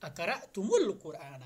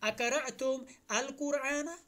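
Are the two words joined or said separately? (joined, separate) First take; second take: joined; separate. First: The words run together with an added u sound. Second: The words are split, with a separate al. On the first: The speaker calls it right. "मीम को एक जम्मा देते, एक पेश देते हैं" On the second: The speaker calls it wrong. "हम अरबी में ऐसे नहीं पढ़ेंगे"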